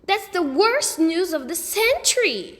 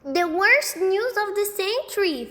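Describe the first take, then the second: First: High, loud dramatic outcry; dismayed cry. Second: High, loud little boy mimicry; imitating Sheila. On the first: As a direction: wail it like a tragedy. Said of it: "Sheila cried". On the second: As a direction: mimic her dramatic wail. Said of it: "doing a perfect imitation of Sheila". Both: A narrator's reading.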